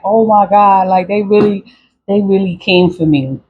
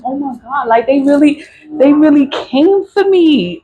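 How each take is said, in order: First: Said in the usual way. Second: High-pitched stunned realization, starting hushed; retold disbelief. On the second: Realizing her family came for her, high disbelief.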